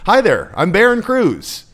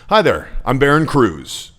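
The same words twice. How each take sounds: First: The voice sounds weak and pleading. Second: The voice sounds friendly and falls at the end. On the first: The speaker calls it wrong. "that's not powerful. How did that sound to you? It sounds super weak" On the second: The speaker calls it right. "Okay, it ends down"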